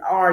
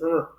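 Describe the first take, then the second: First: The letter is said by its name, 'ar'. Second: The letter is said as its sound, 'rrr'. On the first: The speaker calls it wrong. "the actual name of the letter" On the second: The speaker calls it right. "introduce the letter sounds"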